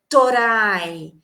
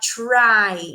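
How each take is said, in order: First: A vowel is inserted between t and r. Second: The t and r are said together. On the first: "então eles falam torai" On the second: "Eles não conseguem falar try"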